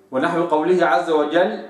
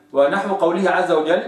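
The two takes are said the same way.

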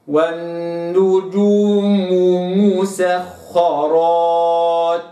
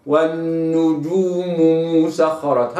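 First: والنجوم مسخرات very slow, each letter placed then rounded; slow recitation. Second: والنجوم مسخرات chanted lightly with one smooth damma; single damma reading. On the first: Teacher recites Surat an-Nahl verse for students, very slow. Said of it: "هكذا". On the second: Teacher contrasts flowing reading for students, chanted. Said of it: "بضمة واحدة". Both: Shown as a demonstration.

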